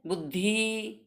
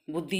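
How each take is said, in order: First: बुद्धि softer, with a long final ई; wrong pronunciation demo. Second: बुद्धि with a short final इ; correct pronunciation demo. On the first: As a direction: drag out the end of बुद्धि, softly. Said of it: "बुद्धि तो wrong है". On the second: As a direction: model बुद्धि briefly, no stretched ending. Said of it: "ये शुद्ध है". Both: Shown as a demonstration.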